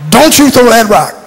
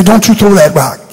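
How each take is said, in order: First: "Don't" hit hard and run into "you" as dontchu; emphatic dontchu. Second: "that" said as "at", the th dropped, "Don't you" as dontchu; "that" without the th. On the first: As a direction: lean on Don't, let it slide into you. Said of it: "the U is needed for emphasis". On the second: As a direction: drop the th from "that", say dontchu throw 'at rock. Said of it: "you gotta drop the T H from the that". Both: Shown as a demonstration.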